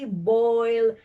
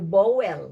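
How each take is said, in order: First: A smooth oi vowel with no w glide. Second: An extra w glide splits the vowel. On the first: The speaker calls it right. "when it should be oi" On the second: The speaker calls it wrong. "so we even add W"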